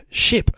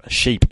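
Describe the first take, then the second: First: Said in the usual way. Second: "Sheep" with a long ee, a touch louder; stretched vowel. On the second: Shown as a demonstration. Testing the accent on "Sheep" with a long ee. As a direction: draw "Sheep" out with a long ee sound. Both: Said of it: "Yeah, that'll work".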